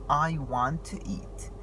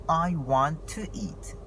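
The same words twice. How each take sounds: Both takes have the same delivery.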